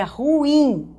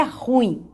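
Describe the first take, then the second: First: "ruim" in two syllables, ru-IM; pronúncia correta. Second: "ruim" squashed into one syllable, RUIM; pronúncia errada. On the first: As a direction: split "ruim" as ru-IM, stressing the end. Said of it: "a pronúncia dessa palavra é". ("ruim" em duas sílabas, tônica no IM) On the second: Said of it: "não é ruim". ("ruim" numa sílaba só, tônica no U) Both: Shown as a demonstration.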